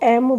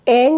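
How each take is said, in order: First: The syllable ends in a closed 'm' sound. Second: The syllable ends in a nasal 'ng' sound. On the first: "कोई इसको एम बोलता है" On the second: "जैसे ओम एंग है"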